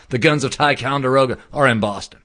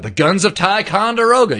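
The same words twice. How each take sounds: First: Said in the usual way. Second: "Ticonderoga" lifted high and a bit louder, falling at the end; dramatic emphasis. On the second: Shown as a demonstration. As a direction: announce "The guns of Ticonderoga" like a grand title. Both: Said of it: "You heard that expression?".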